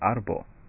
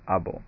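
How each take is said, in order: First: The word is said with an r sound. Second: The word is said without an r sound. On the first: The speaker calls it wrong. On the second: The speaker calls it right.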